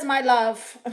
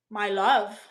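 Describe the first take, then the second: First: Said in the usual way. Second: Sigh, then a skeptical lower "my love?"; incredulous echo. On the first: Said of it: "Mister Jones says". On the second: Real, not acted. Streamer scoffing at a viewer's flirty comment, sighing, unimpressed. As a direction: repeat it as if you can't believe it.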